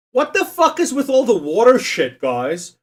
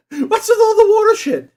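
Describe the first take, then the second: First: Louder, higher fed-up outburst at the quiz; exasperated rant. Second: Much higher, louder, laughing mock outrage; squeaky laughing outrage. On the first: Streamer ranting at the quiz's water options, exasperated and loud. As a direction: throw up your hands at the quiz. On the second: Streamer repeating the water complaint to chat, squeaking with laughter. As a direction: squeal it through a laugh, half joking. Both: Real, not acted.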